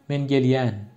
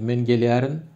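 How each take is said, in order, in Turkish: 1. Fiil eki -yen biçimine kısaltılır. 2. Fiil eki tam olarak söylenir: -yerin. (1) "Kısa hali" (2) "Demin iki örneğde"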